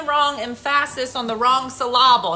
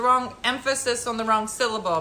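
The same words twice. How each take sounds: First: "emphasis" as em-FASS-is, "syllable" as sil-AH-bul; deliberately misplaced stress. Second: Said in the usual way. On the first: Retold or imitated. Wife joking with husband, "emphasis" and "syllable" stressed mid-word. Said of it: "you're putting the wrong emphasis on the wrong syllable". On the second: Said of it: "Jim, it's a joke".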